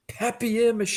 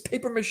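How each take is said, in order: First: The first word sounds French, like pap-yay. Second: The first word sounds like English paper. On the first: The speaker is being pretentious. The speaker calls it wrong. "You're so pompous" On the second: The speaker is being ordinary and unpretentious. The speaker calls it right. "It's paper mache"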